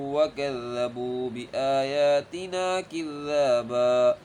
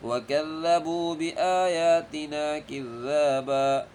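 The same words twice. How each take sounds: The two takes are said the same way.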